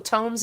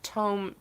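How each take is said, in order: First: The vowel is a long 'oh' sound. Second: The vowel is an 'oo' sound, like tombs.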